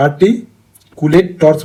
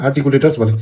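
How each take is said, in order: First: আর্টিকুলেটর্স very slow, broken by a pause after "arti"; slow syllable-by-syllable. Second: Said in the usual way. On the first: Shown as a demonstration. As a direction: spell out the term slowly in chunks. Teacher breaks up a new term. (আর্টিকুলেটর্স ধীরে ভেঙে ভেঙে উচ্চারণ)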